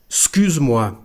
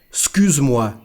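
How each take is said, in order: The two takes are said the same way.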